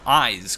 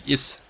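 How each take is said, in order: First: The name sounds like the word 'eyes'. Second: The name sounds like the word 'is'. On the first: The speaker calls it right. "pronounce it as the Eyes" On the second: The speaker calls it wrong. "as opposed to the Is"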